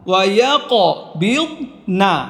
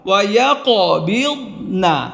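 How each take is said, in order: No difference in how they are said.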